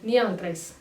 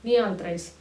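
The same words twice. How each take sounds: First: The middle word is reduced to a quick 'a' sound. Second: The middle word is reduced to a quick 'a' sound.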